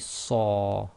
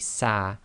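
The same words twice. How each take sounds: First: The vowel is heavy, like ar in art. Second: The vowel is light, like a in apple. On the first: The speaker calls it right. "it must be sa" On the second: The speaker calls it wrong. "with sad you can't say sa"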